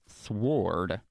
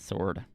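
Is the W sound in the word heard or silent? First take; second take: heard; silent. First: The W is sounded in the word. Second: The W is silent in the word. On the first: The speaker calls it wrong. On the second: The speaker calls it right.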